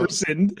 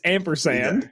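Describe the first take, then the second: First: The first syllable sounds like 'in'. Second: The first syllable sounds like 'am'. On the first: The speaker calls it wrong. "like I N" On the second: The speaker calls it right. "It's ampersand"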